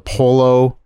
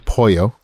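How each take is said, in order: First: It is said with a plain English-style pronunciation. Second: It is said with a careful Spanish-style pronunciation. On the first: Someone else says it without trying. The speaker calls it wrong. "everybody else is like, uh, I'll have the polo" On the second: The speaker says it the proper way. The speaker calls it right. "it's quite obviously pollo"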